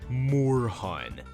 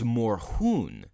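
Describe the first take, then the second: First: The name gets an anglicized pronunciation. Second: The name gets a German pronunciation. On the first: The speaker calls it wrong. "That's how real men say his name" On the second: The speaker calls it right. "The correct pronunciation for his name is"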